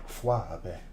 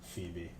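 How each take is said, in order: First: The name is said with distorted, unusual sounds. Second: The name is said with its standard sounds. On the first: The speaker calls it wrong. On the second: The speaker calls it right.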